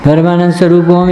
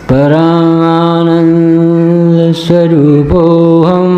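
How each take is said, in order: First: It is said quickly, like a mechanical recitation. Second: It is said slowly, with time to dwell. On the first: It is recited for others rather than felt. The speaker calls it wrong. "ऐसे ऐसे नहीं बोलना ... ये कोई record थोड़ी बताना है कि जैसे किसी को सुना रहा है" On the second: The speaker is taking it in and feeling it. The speaker calls it right. "ऐसे बोल"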